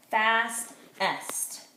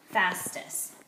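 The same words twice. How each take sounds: First: Fastest cut as fast-est with a break; two beats for fast-est; syllable split. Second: Soft whisper repeat. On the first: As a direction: chop Fastest in the middle. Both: Shown as a demonstration. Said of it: "divide it in the middle here".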